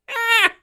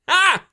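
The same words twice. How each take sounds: First: It is said in a higher voice. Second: It is said in a deep voice.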